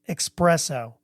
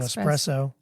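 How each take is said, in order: First: The word begins with an 'ex' sound. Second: The word begins with an 'es' sound. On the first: "She pronounces it ex, espresso" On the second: "instead of espresso"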